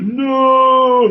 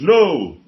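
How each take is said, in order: First: The word is held out for a long time. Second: The word is said short and sharp.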